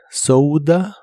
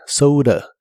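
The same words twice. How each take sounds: First: "soda" with ou and a clear d; "soda" con d. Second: "soda" con d como r; flapped d. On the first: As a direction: say "soda" with a real d. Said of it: "la puedes pronunciar como D". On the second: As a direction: flap the d in "soda". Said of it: "o como R". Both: Shown as a demonstration.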